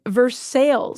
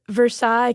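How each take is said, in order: First: It is pronounced the Kentucky way. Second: It is pronounced the French way.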